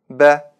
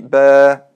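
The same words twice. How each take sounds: First: The vowel is short. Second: The vowel is drawn out long. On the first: The speaker calls it right. "Нужно произносить коротко" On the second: The speaker calls it wrong. "а не"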